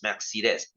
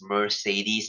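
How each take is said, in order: First: Each of the three E vowels sounds different. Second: The three E vowels do not all sound different. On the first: The speaker calls it right. "It's pronounced as Mercedes. ... they have three E's, but they are all pronounced differently" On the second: The speaker calls it wrong. "it's not pronounced as Mercedes. ... a very uncultured way to say it"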